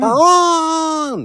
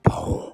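First: It is drawn out and bold. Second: It is short and restrained.

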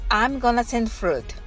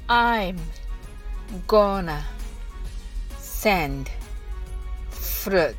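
First: The phrase is spoken quickly. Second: The phrase is spoken slowly. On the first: "次に早く言ってみましょう。" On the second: "はじめはゆっくりです。"

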